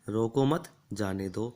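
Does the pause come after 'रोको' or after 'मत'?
after मत. There is a pause right after 'मत'. Do not stop him, let him go. The speaker calls it wrong. "अल्प विराम का गलत प्रयोग कर दें तो"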